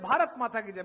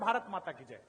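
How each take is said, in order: First: It is said loudest. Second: It is said softly.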